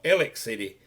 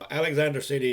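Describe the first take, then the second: First: The name is squeezed to a few syllables. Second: All syllables of the town name are said. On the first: "is called Ellick City by most of the people in this area" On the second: "or Alexander City"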